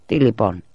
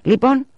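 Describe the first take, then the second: First: Said in the usual way. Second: High, loud rising question; insistent, high-pitched prompt; prodding question. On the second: A narrator's reading. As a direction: press for an answer, voice shooting up. Sister presses brothers for answer.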